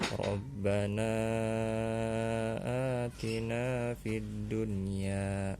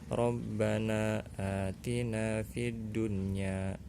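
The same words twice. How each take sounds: First: The final vowel of Rabbana is held longer. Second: The final vowel of Rabbana is held briefly. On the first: "boleh juga dibaca empat atau lima" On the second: "Bisa dibaca dua harakat"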